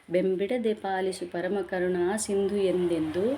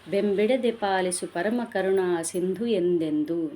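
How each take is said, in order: No difference in how they are said.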